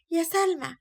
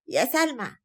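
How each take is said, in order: First: Calling again, pitched up higher; second, higher call. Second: Calling out across the flat; grandmother's first call to Salma. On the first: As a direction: call her name again more insistently. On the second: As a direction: summon the girl from the next room. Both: Acted. Grandmother calls granddaughter twice.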